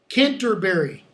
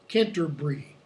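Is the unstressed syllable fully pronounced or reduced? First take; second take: full; reduced. First: Every syllable is fully pronounced, American style. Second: The unstressed syllable is reduced, British style.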